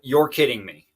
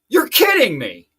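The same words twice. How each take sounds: First: It is said at a quiet, normal volume. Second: It is said very loudly, like an outburst.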